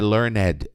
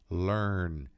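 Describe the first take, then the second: First: The -ed ending is said as an extra syllable. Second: The -ed ending adds no extra syllable. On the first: The speaker calls it wrong. "Não é learned" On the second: The speaker calls it right. "é learned"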